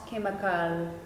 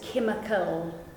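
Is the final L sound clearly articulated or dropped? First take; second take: dropped; articulated. First: The final L is weak or dropped. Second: The final L is clearly articulated with the tongue. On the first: The speaker calls it wrong. "not chemical" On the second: The speaker calls it right. "Final example is chemical"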